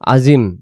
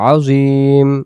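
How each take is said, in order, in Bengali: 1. শেষের স্বরটি হ্রস্ব। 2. শেষের স্বরটি টেনে দীর্ঘ করে বলা হয়। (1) "তখন ইয়া অক্ষরটা কি বাদ চলে যায়।" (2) "একটু টান দিয়ে বলবো"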